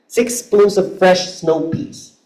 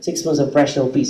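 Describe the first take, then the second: First: Each syllable is evenly spaced and clearly separated. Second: The syllables are faster and glide into each other. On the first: "it's well syllabicated. It's evenly spaced out" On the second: "it's much faster because they have the tendency to do gliding"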